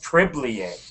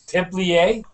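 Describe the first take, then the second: First: The stress is on the first syllable. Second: The stress is on the last syllable. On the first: The speaker calls it wrong. "I originally thought it was Tiblier" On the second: The speaker calls it right. "Very good"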